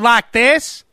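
It is spoken in a Southern accent. "a southern accent"

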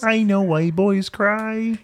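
It is said in a Kermit the Frog voice.

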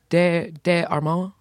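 The name is said with a French accent.

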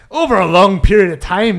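It is said in a put-on character voice.

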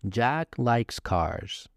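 The voice falls at the end. The speaker is stating a fact. "But a normal statement would be"

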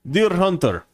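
It is said in an impression of Pozarski.

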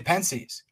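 The word has an American English pronunciation. It sounds plain and unpretentious. "I'm really just an American swine and I say Pensées"

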